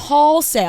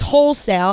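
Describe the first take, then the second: First: The first syllable sounds like 'haul'. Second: The first syllable sounds like 'hole'. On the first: The speaker calls it wrong. "She kept saying haul sale" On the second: The speaker calls it right. "The word was wholesale"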